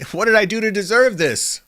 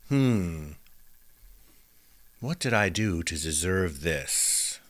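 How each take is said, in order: First: It sounds hurt and complaining. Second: It sounds calm and thoughtful.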